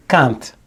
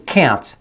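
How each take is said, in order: First: Can't with an open ah vowel, cahnt; can't as Penelope says it; Italian-style can't. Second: Can't with a flat nasal a, as in cat; can't as the other actors say it; American can't. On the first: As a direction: say can't with the broad a of father. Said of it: "She's saying hand". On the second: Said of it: "She's saying can't". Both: Shown as a demonstration.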